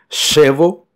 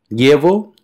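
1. Empieza con un sonido sh. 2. Empieza con un sonido de l palatal. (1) "equivale a un C H do portugués" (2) "como si fuese el L-H del portugués"

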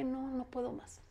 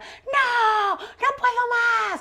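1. La frase se dice en voz baja, sin gritar. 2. La frase se grita en voz muy alta y con dramatismo. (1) "no voy a gritar, voy a hacer justo lo contrario" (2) "todo el mundo gritaba"

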